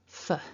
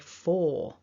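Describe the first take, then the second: First: The syllable has a tiny reduced vowel. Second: The syllable has a full, strong vowel. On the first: The speaker calls it right. "that first O is actually a schwa sound" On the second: The speaker calls it wrong. "overpronounce it and say for. It's too big"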